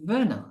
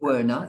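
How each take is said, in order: First: The name begins with a V sound. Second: The name begins with a W sound. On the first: The speaker calls it right. "it's Werner. It was V" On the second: The speaker calls it wrong. "you don't say"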